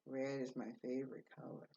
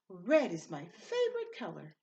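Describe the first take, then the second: First: It is said flatly, without much energy. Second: It is said with energy and enthusiasm. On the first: The speaker calls it wrong. "She didn't say" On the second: The speaker calls it right. "That means she said it with energy and enthusiasm"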